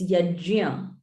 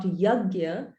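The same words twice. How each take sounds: First: "yajya" slowly, with j in the middle; "yajya" with j replacing the hard g; correct pronunciation. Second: "yagya" with a hard g in the middle; wrong pronunciation. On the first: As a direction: demonstrate "yajya" as yaj-ya, unhurried. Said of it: "it's not yagya, it's yajya". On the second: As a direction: show the common mistake "yagya". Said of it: "So it's not yagya". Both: Shown as a demonstration.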